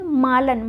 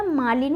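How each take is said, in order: First: मालन ending in "lan"; मालन, short a before n; wrong form shown. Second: मालिन ending in "lin"; मालिन, i before n; correct form shown. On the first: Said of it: "मालन नहीं होता". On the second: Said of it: "मालिन होता है". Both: Shown as a demonstration.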